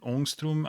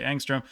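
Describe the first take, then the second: First: The word is said with a foreign-sounding pronunciation. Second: The word is said with a plain English pronunciation. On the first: "I'm guessing is how you like actually say that" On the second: "So I'm just going to say angstrom"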